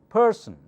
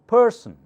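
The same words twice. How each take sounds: No difference in how they are said.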